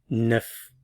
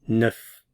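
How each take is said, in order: No difference in how they are said.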